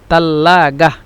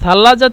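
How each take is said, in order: First: It is said with Egyptian t and hard g. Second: It is said with standard Arabic th and j. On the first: "মিশরের আঞ্চলিক ভাষা ওরা বলে" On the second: "সাল্লাজা তো আরবি শুদ্ধ ভাষা"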